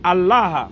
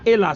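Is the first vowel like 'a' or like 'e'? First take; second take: a; e. First: The first vowel is an 'a' sound. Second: The first vowel is an 'e' sound. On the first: The speaker calls it right. "c'est Allah" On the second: The speaker calls it wrong. "C'est pas Ella"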